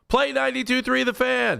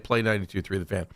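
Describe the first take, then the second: First: The command is shouted loudly. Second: The command is said at normal volume. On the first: "You don't have to yell it like I did" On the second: "just say"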